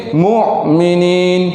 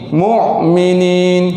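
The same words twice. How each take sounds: Both takes have the same delivery.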